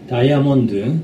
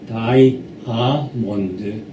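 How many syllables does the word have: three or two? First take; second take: two; three. First: The word is said in two syllables. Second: The word is said in three syllables. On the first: The speaker calls it right. "원래가 두 음절입니다" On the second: The speaker calls it wrong. "이렇게 세 음절로 만들어요"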